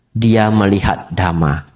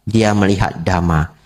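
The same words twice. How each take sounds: The two takes are said the same way.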